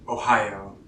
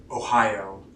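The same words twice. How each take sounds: The two takes are said the same way.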